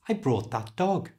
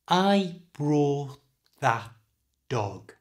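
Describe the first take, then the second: First: The sentence is spoken at normal speed. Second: The sentence is spoken slowly. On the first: "And at normal speed" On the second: "In a sentence slowly"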